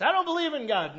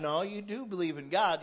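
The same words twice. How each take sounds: First: High, loud mock denial; mocked atheist. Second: Firm correction leaning on "do"; stress on DO. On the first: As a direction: blurt it out as a caricatured atheist. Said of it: "Even the atheists". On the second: Real, not acted. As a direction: contradict them, punching "do" in your own voice. Preacher contradicts the mocked atheist.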